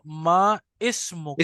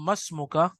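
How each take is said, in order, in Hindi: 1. शब्द अलग-अलग बोले जाते हैं, हर एक पूरा। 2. शब्द आपस में जुड़ जाते हैं, एक स्वर गिर जाता है।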